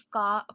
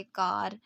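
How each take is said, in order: First: का with no R at the end; British-style का, ending on the open vowel; British R-dropping. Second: कार with the final R sounded; American-style कार, R not dropped; full American pronunciation. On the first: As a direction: say "car" as का, final R dropped. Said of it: "British accent के according इसे सिर्फ का पढ़ा जाता". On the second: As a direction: say कार in full, keeping the R at the end. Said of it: "ये word पूरा pronounce किया जाता था". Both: Shown as a demonstration.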